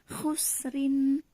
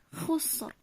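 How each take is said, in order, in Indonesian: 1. Kata ini berakhir dengan huruf hidup dan n. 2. Kata ini berhenti pada bunyi r di akhir.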